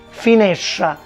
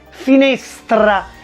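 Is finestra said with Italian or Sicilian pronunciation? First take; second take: Sicilian; Italian. First: The str cluster sounds retroflex, close to sh. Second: The str cluster is said as in standard Italian. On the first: "in siciliano" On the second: "in italiano"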